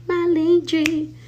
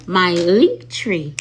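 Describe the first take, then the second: First: High, slow sing-song "link tree"; high sing-song repeat. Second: Slow, loud, with stress on "link tree"; slow stressed repeat. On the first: High sing-song "link tree" teasing the live viewers. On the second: Emphatic, slow "link tree" for the chat. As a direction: spell out "link tree" slowly to the live chat. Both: Shown as a demonstration. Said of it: "That's what I was trying to say".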